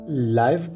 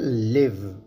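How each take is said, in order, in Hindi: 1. स्वर 'आई' ध्वनि है। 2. स्वर छोटी 'इ' ध्वनि है। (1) "इसे हम लाइव प्रोनाउंस करते हैं" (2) "इसे हम लिव प्रोनाउंस करते हैं जब इसे हम एज अ वर्ब इस्तेमाल करते हैं"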